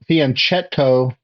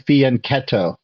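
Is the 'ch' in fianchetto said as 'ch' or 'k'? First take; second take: ch; k. First: The middle consonant sounds like 'ch' in 'church'. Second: The middle consonant sounds like a 'k'. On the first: The speaker calls it wrong. "it's not fianchetto" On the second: The speaker calls it right. "that C H sound sounds like a k, k sound in Italian"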